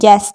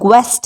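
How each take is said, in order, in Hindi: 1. g के बाद w की आवाज़ नहीं आती। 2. g के बाद w की आवाज़ आती है।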